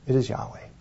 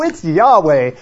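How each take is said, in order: First: It is said with a resigned sigh. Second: It is said lightly, without resignation. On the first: The speaker accepts the bad news with resignation. The speaker calls it right. "It was a resignation. It was a sigh" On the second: The speaker is untroubled by the news. The speaker calls it wrong. "I don't think he was saying that like this"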